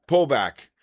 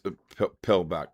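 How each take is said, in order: First: "Pull back" said carefully with the u sound of "pull"; careful corrected "Pull back"; corrected word. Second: "pill back" said with an i sound in "pill" instead of "pull"; "pill" slipped out for "pull"; tongue slip. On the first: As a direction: fix the slip with a clear "Pull". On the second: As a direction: stumble into "pill back" by mistake. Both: Real, not acted. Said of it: "I can't even talk".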